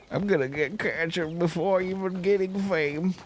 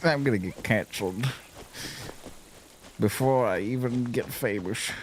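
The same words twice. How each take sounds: First: High, put-on comic voice; joking high-pitched put-on delivery; mock high voice. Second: Said in the usual way. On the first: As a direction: repeat the joke in a raised silly voice. Repeats the joke in high voice.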